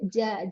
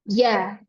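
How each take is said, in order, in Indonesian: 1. Huruf j bocor udara, terdengar basah dan berdesir. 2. Huruf j tegas, tidak ada udara yang bocor keluar. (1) "kalau ja-nya huruf Indonesia itu ja, ja becek" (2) "Tapi jimnya uh, huruf hijaiyah itu tidak becek"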